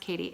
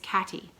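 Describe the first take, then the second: First: The first vowel sounds like in 'Kate'. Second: The first vowel sounds like in 'cat'. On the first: The speaker calls it wrong. "it's not pronounced Katie" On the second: The speaker calls it right. "It's cat. It's Catty"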